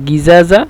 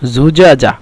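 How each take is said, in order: First: It is said in Egyptian Arabic pronunciation. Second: It is said in Standard Arabic pronunciation. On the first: "ওরা উচ্চারণ করে মিশরের ভাষায়" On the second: "মূলত শব্দটি হলো জুজাজা"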